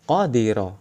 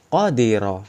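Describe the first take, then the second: The two takes are said the same way.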